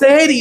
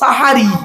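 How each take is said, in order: First: The first vowel is an e sound. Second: The first vowel is an a sound. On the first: It means doing magic. The speaker calls it wrong. "দন্তেশ্বয় একান নয়" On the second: It means the pre-dawn meal. The speaker calls it right. "দন্তেশ্বয় আকা"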